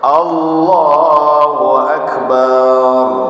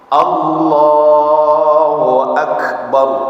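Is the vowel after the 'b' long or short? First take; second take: long; short. First: The vowel after the b is drawn out long. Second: The vowel after the b is short. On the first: Allah of the drums. The speaker calls it wrong. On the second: Allah is the greatest. The speaker calls it right.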